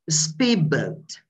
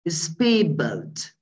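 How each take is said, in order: First: The d of speed turns into b. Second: The same.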